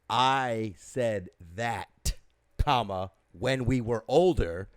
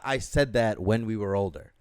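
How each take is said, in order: First: A break separates 'I said that' from the rest. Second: The whole sentence runs together without a break. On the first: The remark was reported from back when they were older. The speaker calls it right. "You have to enunciate your punctuation when you're speaking" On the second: The speaker said it at an older age. The speaker calls it wrong. "Not I said that when we were older"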